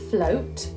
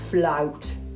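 First: The vowel is a narrow, rounded 'oh' sound. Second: The vowel is a wide 'ow' sound. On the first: "So instead of saying float" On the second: "we say flout"

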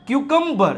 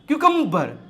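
First: The second syllable sounds like 'kuh'. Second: The same.

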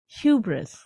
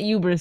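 First: The opening H sound is clearly pronounced. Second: The opening H sound is weak or dropped. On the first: The speaker calls it right. "It's hubris" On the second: The speaker calls it wrong. "It's not hubris"

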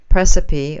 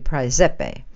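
First: It is said with an English-style pronunciation. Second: It is said with a classical Latin pronunciation. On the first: "which is called Precipi" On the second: "or in proper Latin, I understand it would be Praesepe"

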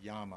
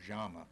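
First: The double L is sounded like a y. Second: The double L is sounded like sh. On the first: "a double L is pronounced like a Y or an SH" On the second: "a double L is pronounced like a Y or an SH"

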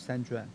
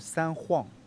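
First: Juan starts with a J sound. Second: Juan starts with an H sound. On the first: The speaker calls it wrong. "不是三砖" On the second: The speaker calls it right. "那个J 是念H 的音"

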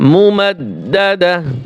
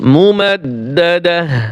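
First: The word ends with a soft h sound. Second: The same.

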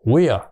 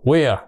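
The two takes are said the same way.

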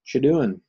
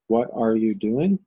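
First: The words are run together into one quick word. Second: Each word is said fully and separately. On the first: "just from saying it fast" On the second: "it might sound something like this"

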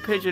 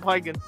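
First: The name sounds like the bird word pigeon. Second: The name sounds like pie-gon, with a hard g. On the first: The speaker calls it right. "Supposed to be Pigeon" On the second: The speaker calls it wrong. "not Pygon"

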